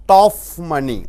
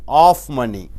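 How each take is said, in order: Both takes have the same delivery.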